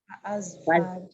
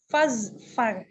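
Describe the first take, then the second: First: A glottal catch separates fa from azfar. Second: The syllables run together with no catch. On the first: The speaker calls it wrong. "Jadi tidak dibaca fa'azfar" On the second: The speaker calls it right. "cara membacanya adalah digabungkan fazfar"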